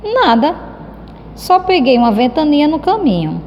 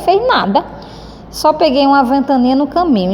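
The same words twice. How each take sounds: First: A hint of a shrugging boy, higher; indifferent reply. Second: A lightly voiced shrug, higher; indifferent. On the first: Teacher voicing Cebolinha dismissing Mônica's question, offhand. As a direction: brush the question off as if nothing happened. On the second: Teacher showing how Cebolinha answers, not bothered. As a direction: say it like he couldn't care less. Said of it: "pela cara dele". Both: Shown as a demonstration.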